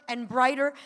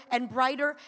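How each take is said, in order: Both takes have the same delivery.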